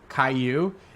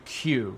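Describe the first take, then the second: First: The name is said with two syllables. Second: The name is said with one syllable. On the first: The speaker calls it wrong. "It's not pronounced K Y U or Caillou" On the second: The speaker calls it right. "It's actually Q. So if you think of the letter Q, that's how you say it"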